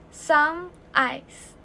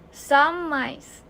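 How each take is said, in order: First: The two words are said separately. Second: The m sound runs straight into ice.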